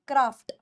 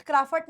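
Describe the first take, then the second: First: क्राफ्ट as one syllable, tight "ft"; correct version. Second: क्राफ्ट with an extra vowel, "kraa-fut"; wrong version. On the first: Teacher corrects the class, क्राफ्ट said as one syllable. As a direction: close क्राफ्ट lower on a clean "ft". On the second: Teacher shows the mistake, क्राफ्ट said "kraa-fut". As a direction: split the end of क्राफ्ट into "fut". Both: Shown as a demonstration. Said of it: "क्राफ्ट नहीं".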